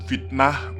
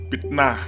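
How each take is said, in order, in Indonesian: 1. Kata ini diawali dengan bunyi F. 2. Kata ini diawali dengan bunyi P. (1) "Ketika menyebut fitnah" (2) "mereka malah menyebut fitnah"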